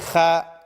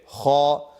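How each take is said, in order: First: The vowel is a light, open 'ah'. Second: The vowel is a heavy, rounded 'oh'. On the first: The speaker calls it wrong. "Am I going to say kha? Nope" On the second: The speaker calls it right. "Kha is a heavy letter"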